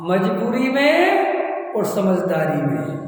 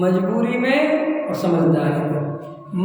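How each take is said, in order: First: Two key words spelled out slowly; slow deliberate teaching contrast; slow emphatic. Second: Slow, questioning repeat ending on a rise; slow repeat with rising tune. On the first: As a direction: lay each word down slowly for the listeners. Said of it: "दो शब्द बताओ". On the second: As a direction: repeat the two words slowly, lifting at the end. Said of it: "इसके अर्थ करो". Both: Shown as a demonstration.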